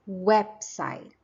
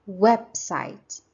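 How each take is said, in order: The two takes are said the same way.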